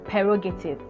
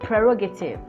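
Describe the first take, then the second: First: The first syllable sounds like 'per'. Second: The first syllable sounds like 'pre'. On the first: The speaker calls it wrong. "It is not prerogative" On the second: The speaker calls it right. "It is prerogative"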